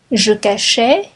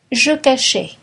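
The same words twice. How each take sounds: First: « Je cachais » avec montée sur « cachais »; intonation montante. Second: « je cachais » avec la voix qui retombe; intonation descendante. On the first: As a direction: dire « Je cachais » en suspens, voix qui monte. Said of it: "conjugation drill, list intonation". (« Je cachais » sur un ton montant) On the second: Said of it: "conjugation drill, closing item". (« je cachais » sur un ton descendant) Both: Shown as a demonstration.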